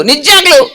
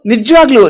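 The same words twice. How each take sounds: First: Slightly raised puppet voice; puppet echo. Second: Said in the usual way. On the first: Acted. Puppet assures the doubting host, lightly pitched puppet voice. Puppet echoes host's question.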